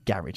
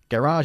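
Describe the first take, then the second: First: The word is pronounced the British way. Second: The word is pronounced the American way. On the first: "in the UK we say garage" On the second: "Garage is how they pronounce it in the States"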